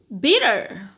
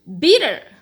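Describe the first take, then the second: First: It is said with an American accent. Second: It is said with an American accent.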